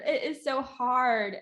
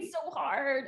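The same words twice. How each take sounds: First: It is so hard said slowly, leaning on so; slow and insistent on so; slow emphatic. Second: Said in the usual way. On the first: Real, not acted. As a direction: drag it out to insist it's hard.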